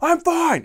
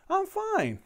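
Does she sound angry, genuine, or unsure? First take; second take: angry; genuine. First: It sounds annoyed and curt. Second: It sounds sincere and content.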